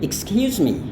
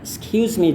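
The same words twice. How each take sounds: First: The first syllable is clearly pronounced in full. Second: It is said quickly with the first syllable dropped. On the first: It suits a formal, polite situation. The speaker calls it right. "pelafalan yang sepenuhnya. Jadi yang pertama ini ya, bukan yang jadi ini harus dilafalkan juga" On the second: It is a quick, casual way of saying it. The speaker calls it wrong. "cepat-cepat katakan excuse me juga, orang akan tetap mengerti"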